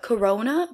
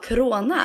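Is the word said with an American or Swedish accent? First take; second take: American; Swedish. First: It is said with an American accent. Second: It is said with a Swedish accent.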